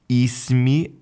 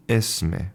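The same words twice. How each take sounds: First: "Ismi" with a high ee vowel, pitched up and rising; Moroccan i vowel. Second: "Esme" with an open eh vowel, falling; Lebanese e vowel. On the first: Teacher contrasting the vowel change, Moroccan "Ismi" with ee vowel. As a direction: stress the ee at the start of "Ismi". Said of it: "the only sound change was in the vowel". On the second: Teacher contrasting the vowel change, Lebanese "Esme" with eh vowel. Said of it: "her pronunciation was Esme". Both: Shown as a demonstration.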